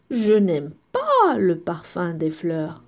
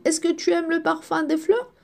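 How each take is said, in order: First: Low, with "pas" marked; stress on pas. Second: Rising question to the class; asking the question. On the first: Teacher showing pupils the negation, stressing "pas". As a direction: lean on "pas" in a lowered voice. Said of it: "Regardez, qu'est-ce qu'on a ajouté?". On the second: Teacher asking pupils a question, rising. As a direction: ask it like a curious friend. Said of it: "Si je te pose la question". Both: Shown as a demonstration.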